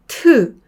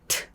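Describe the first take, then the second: First: The vowel after the consonant is fully voiced. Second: The vowel is weakened to a puff of air. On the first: The speaker calls it wrong. "트가 아니라" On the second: The speaker calls it right. "그냥 공기만 빠져나와요"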